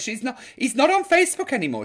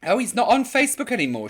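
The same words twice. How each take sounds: First: Quoting a viewer again. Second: Quoting a viewer. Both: Retold or imitated. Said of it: "she says".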